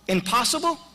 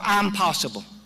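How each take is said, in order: First: It opens with a short, unstressed 'im' sound. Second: It opens with a long 'I'm' sound. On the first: It cannot be done. The speaker calls it wrong. "how will you pronounce it? Impossible" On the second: I can do it. The speaker calls it right. "or I'm possible?"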